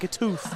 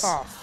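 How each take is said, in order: First: The last syllable sounds like 'oof'. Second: The last syllable sounds like 'off'. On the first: The speaker calls it wrong. "we've been saying Katoof" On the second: The speaker calls it right. "Katoff, I think is what he"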